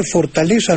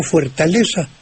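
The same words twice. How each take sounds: First: "fortaleza" starting with for; simple o in the unstressed start of "fortaleza"; plain O. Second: "fuertaleza" starting with fuer; diphthong UE. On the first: Maestro illustrates the rule, "fortaleza" with o. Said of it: "se convierte en O". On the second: Maestro gives the unused form, "fuertaleza" with ue. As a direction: put a ue glide into "fuertaleza". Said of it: "usted dice fortaleza". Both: Shown as a demonstration.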